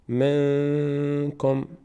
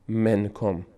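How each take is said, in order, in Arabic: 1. النون مخفاة ومغنّنة ومُطوّلة قليلاً. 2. تُنطق النون كاملة وواضحة. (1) "این رو در بینی ادا میکنیم" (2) "نمیگیم منکم منکم"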